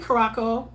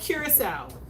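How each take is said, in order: First: The word ends with a 'co' sound. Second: The word ends with a 'cow' sound. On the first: The speaker calls it wrong. "Don't say Caraco" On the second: The speaker calls it right. "It's called curacao"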